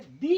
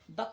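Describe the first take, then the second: First: The vowel of the word is long, like 'thee'. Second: The vowel of the word is short, like 'thuh'. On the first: The next word begins with a vowel. "जब vowels होगा तो हम लोग इसको कहेंगे दी" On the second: The next word begins with a consonant. "Consonant रहेगा जैसे कि द केट"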